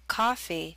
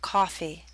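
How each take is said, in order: First: The first vowel is an open ah sound. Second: The first vowel is a rounded aw sound.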